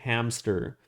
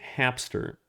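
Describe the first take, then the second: First: It is said with no P sound before S. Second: It is said with a P sound before S. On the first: The speaker calls it wrong. "you don't say hamster" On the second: The speaker calls it right. "you say hamster"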